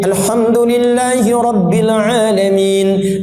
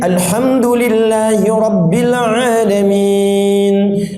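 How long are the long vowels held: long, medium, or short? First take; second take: short; medium. First: It is recited fast, with short two-count vowels. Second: It is recited moderately, with four-count vowels. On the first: "Hadar itu bacaan cepat ... dua harakat" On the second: "mutawasid jadi empat. Empat harakat dua detik"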